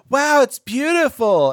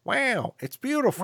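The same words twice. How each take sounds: First: Loud, high, drawn-out mock awe; gushing girlfriend. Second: High, softer catchphrase impression; Owen Wilson. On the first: Sound girl interrupting her own recording, mock gushing. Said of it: "before she's like". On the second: Boyfriend echoing the sound girl's awe, actor impression. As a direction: echo her in a swooping actor impression. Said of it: "And he's like".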